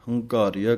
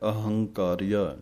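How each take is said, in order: First: The word begins directly with an h sound. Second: The word begins with an 'a' vowel sound. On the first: The speaker calls it wrong. "ਐੜਾ ਛੱਡ ਜਾਂਦੇ ਹਨ" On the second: The speaker calls it right. "ਇਹ ਪਾਠ ਇਕੱਠਾ ਹੀ ਬੋਲਣਾ ਹੈ"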